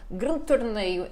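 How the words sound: Azorean accent with a different speech rhythm. "um ritmo diferente da gente"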